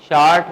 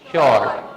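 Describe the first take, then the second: First: The vowel sounds like 'aa' in 'father'. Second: The vowel sounds like 'aw' in 'saw'. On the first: The speaker calls it wrong. "शार्ट नहीं" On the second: The speaker calls it right. "नहीं शॉर्ट"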